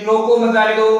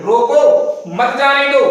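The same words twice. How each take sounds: First: रोको मत जाने दो rattled off in one go; quick, without pause. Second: Slow, emphatic रोको, brief pause, मत जाने दो; slight pause after रोको. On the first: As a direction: read रोको मत जाने दो straight through, no comma. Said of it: "बहुत गति से आप पढ़ रहे हो". (रोको मत जाने दो बिना रुके, तेज़ गति से) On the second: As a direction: stop lightly after रोको, then stress मत जाने दो. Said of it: "हल्का सा रुक रहे हो". (रोको पर हल्का रुककर, धीरे-धीरे मत जाने दो) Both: Shown as a demonstration.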